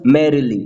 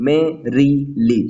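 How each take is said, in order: First: Said in the usual way. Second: Merrily drawn out very slowly, MER stressed then two light syllables; slow stress demo. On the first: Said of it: "example merrily". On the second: Shown as a demonstration. Teacher showing students the dactyl in merrily, slowly stressed. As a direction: spell out the beat of merrily, stressed first then unstressed. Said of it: "dactylic फूट में पहले stressed syllable".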